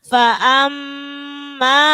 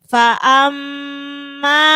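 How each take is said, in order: The two takes are said the same way.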